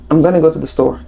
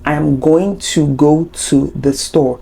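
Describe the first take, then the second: First: It uses the contraction and runs words together. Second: Every word is said fully and distinctly.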